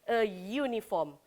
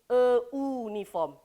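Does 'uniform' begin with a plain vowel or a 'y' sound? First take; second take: y sound; plain vowel. First: Uniform begins with a 'y' sound. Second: Uniform begins with a plain vowel sound. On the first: The speaker calls it right. "pronunciation dia iaitu Y" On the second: The speaker calls it wrong. "Dia tak bunyi a uniform. Dia tak bunyi macam tu"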